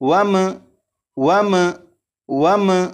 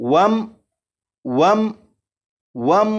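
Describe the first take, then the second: First: The final m ends with a bouncing echo. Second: The final m stops cleanly without hum or echo. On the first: The speaker calls it wrong. "इस मीम साकिन पर कलकला भी नहीं करेंगे, यानी इस तरह से नहीं पढ़ेंगे।" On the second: The speaker calls it right. "जैसे ही मीम साकिन पर पहुंचे तो आवाज खत्म"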